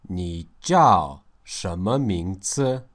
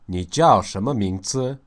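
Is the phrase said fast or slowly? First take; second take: slowly; fast. First: It is said slowly, split into two parts. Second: It is said quickly, run together in one phrase.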